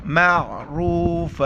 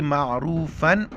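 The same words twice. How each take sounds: First: Slow chanted "मअरूफ़ा", final n dropped for a long aa; pausal ending. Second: Said in the usual way. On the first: Shown as a demonstration. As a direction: end "मअरूफ़ा" on a held open aa. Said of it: "जब वक्फ़ करेंगे". (वक्फ़ में "मअरूफ़ा" का आ खींचकर) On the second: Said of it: "ये लफ्ज़ है मअरूफ़न".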